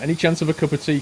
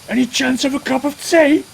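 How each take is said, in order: First: It sounds like a polite, questioning request. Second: It sounds like an outraged exclamation. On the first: It is a simple request. The speaker calls it right. "I was putting a question mark on the end of that" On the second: The lack of tea is outrageous. The speaker calls it wrong. "So now it sounds like I'm being like, it's outrageous"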